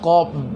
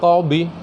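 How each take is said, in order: First: The word ends on a bare consonant. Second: The word ends with a short vowel. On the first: The speaker calls it right. "Yang benar qab" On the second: The speaker calls it wrong. "wakofnya nggak tepat"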